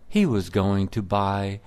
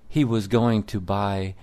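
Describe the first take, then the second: No difference in how they are said.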